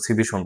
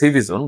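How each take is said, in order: First: The consonant before the last syllable sounds like sh. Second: The consonant before the last syllable sounds like z. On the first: "অনেকে দেখলাম সিভিশন বলে" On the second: "মূলত উচ্চারণ হবে সিভিজন"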